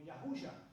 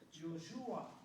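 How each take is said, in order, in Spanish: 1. El nombre empieza con un sonido 'Ya'. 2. El nombre empieza con un sonido 'Yo'. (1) "el hebreo original es Yahusha" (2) "el Yoshua está hablando en el hebreo con influencia griega"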